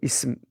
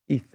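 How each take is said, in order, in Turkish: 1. Ünsüz düz bir s sesi. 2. Ünsüz peltekli bir th sesi. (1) "Türkçe'de isim" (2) "Peltekli okunuyor"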